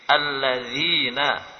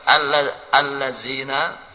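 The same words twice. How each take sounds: First: The middle consonant is a voiced th sound. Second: The middle consonant is a plain z sound. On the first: The speaker calls it right. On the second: The speaker calls it wrong.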